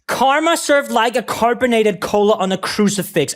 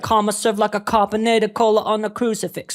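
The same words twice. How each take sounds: First: It is said in the speaker's own American accent. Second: It is said in an imitated British accent. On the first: The line lands less hard. The speaker calls it wrong. "like I'm saying it in my accent" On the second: The line hits harder. The speaker calls it right. "when you say it with a British accent"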